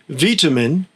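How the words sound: It uses the British pronunciation. "in the U K"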